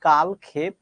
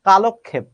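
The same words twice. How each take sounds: First: The first part is said as 'kal'. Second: The first part is said as 'kalo'. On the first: The speaker calls it wrong. "আমরা বলি কালক্ষেপ, এই উচ্চারণটা ভুল করি" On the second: The speaker calls it right. "সঠিক উচ্চারণ হচ্ছে কালক্ষেপ"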